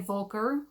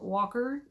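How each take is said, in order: First: It is said with a German pronunciation. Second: It is said with an English pronunciation. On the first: "the German pronunciation" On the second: "or English"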